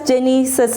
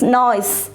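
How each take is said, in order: First: The word starts with a hard G sound. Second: The word starts with an N sound. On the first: The speaker calls it wrong. "Don't read it as Genesis. Not it's not it's not it's wrong" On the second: The speaker calls it right. "It's noise"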